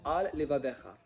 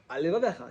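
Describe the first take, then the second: First: Each word is articulated separately, both l sounds clear. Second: The words run together into one word. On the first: The speaker calls it right. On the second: The speaker calls it wrong.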